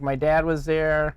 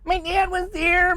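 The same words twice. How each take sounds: First: It is said in a lower voice. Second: It is said in a higher voice.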